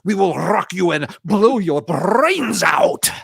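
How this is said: It is said in a deep, gravelly pirate voice.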